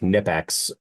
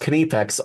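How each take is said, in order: First: The name is said the American way. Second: The name is said the German way. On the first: "to my American brain, it sounds like Nipex" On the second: "they say Kniepex in Ger-"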